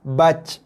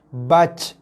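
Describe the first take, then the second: First: The final j ends with a breathy puff. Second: The same.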